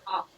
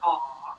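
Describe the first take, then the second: First: The vowel is a short, open ah sound. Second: The vowel is a rounded, drawn-out aw sound. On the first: This is the dictionary way of saying it. The speaker calls it right. "It's a very short ah sound when you make it" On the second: This is the Southern way of saying it. The speaker calls it wrong. "sounds a little more like an A U, like aw"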